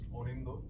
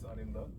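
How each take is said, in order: First: The name is said in a Bengali pronunciation. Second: The name is said in an English-style pronunciation.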